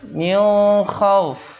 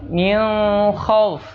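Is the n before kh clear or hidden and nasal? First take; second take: hidden; hidden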